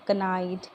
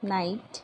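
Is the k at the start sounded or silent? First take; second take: sounded; silent. First: The k at the start is sounded. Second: The k at the start is silent. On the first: The speaker calls it wrong. "कनोक नहीं बोलते हैं" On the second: The speaker calls it right. "मेरे साथ repeat कीजिए"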